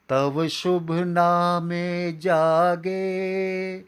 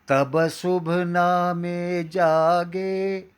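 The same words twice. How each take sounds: First: The lips stay apart for a v sound. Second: The lips close for a b sound. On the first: The speaker calls it right. "आपको बिना होठ चिपकाए बोलना है" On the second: The speaker calls it wrong. "होठ चिपका दिए जाते हैं और तब को तब बना दिया जाता है"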